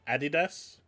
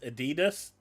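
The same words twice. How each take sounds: First: It is said in a British way. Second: It is said in a non-British way.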